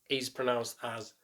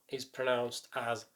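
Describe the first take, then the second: Both takes have the same delivery.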